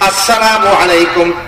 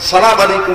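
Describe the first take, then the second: First: The greeting begins with an 'as' sound. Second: The greeting begins directly with 'sa'. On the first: The speaker calls it right. "শুরুতে হামজা আছে, আলিফ আছে।" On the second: The speaker calls it wrong. "সালাম আলাইকুম না। ... অশুদ্ধ উচ্চারণ।"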